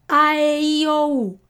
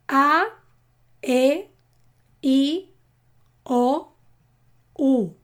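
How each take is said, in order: First: The vowels are said at their fastest. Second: The vowels are said a little faster. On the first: "Y más rápido" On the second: "Un poco más rápido"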